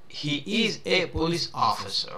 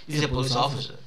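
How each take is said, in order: First: He is is said as two full words. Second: He is is contracted into one quick syllable.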